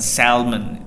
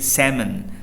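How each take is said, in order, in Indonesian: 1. Bunyi L diucapkan. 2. Bunyi L tidak diucapkan. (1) "bukan salmon" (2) "tapi salmon"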